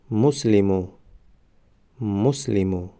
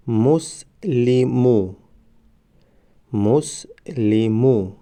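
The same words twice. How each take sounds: First: Said in the usual way. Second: مسلمو stretched very slowly, syllable by syllable; drawn-out demo. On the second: Shown as a demonstration. Teacher modelling the word for students, very slow. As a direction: draw out مسلمو slowly for the class. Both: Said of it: "ما باید همان حرف را فقط آوازش را تلفظ کنیم".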